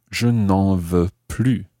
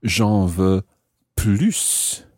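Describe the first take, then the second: First: Slow phrase, "plus" ending on its vowel; silent S in plus. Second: "plus" set apart with a sounded final S; pause, then "plus" with its S heard; S pronounced in plus. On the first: Teacher says they want no more, S silent in "plus". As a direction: leave the S of "plus" unsaid, slowly. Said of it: "when you don't pronounce the S". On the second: Teacher says they want some more, S sounded in "plus". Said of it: "when you pronounce the S of plus". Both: Shown as a demonstration.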